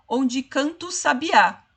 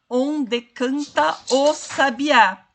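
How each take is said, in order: First: "onde canta o sabiá" run together as "ondji cantu sabiá"; everyday connected "onde canta o sabiá", final A of canta merging into the O; fala natural, com elisão. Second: Over-careful "onde canta o sabiá", a clear "de", "ta" and "o" kept apart; pronúncia escandida, artificial. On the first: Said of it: "nós dizemos assim". ("onde canta o sabiá" natural, emendado como "cantu sabiá") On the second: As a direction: say "onde canta o sabiá" slowly, every vowel full and separate. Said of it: "E ninguém fala assim". ("onde canta o sabiá" escandido devagar, com cada vogal separada)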